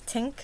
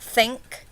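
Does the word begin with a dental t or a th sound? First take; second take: dental t; th sound. First: The word begins with a dental t sound. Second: The word begins with a soft th sound. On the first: The speaker calls it right. "They give you that dental sound" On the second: The speaker calls it wrong. "It's not think"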